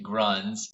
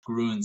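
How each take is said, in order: First: The name is said with an English vowel. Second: The name is said with a German vowel. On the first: The speaker calls it wrong. "I was pronouncing it Gruns" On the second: The speaker calls it right. "how Grüns is, is technically pronounced"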